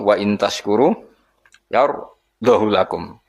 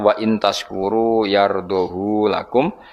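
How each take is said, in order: First: The vowel of 'hu' is kept short. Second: The vowel of 'hu' is drawn out long. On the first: "lan tanpa isba" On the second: "ma isbain sertane isba berarti normal"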